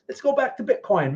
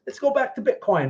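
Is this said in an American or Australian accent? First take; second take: Australian; Australian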